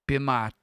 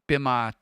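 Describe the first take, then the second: No difference in how they are said.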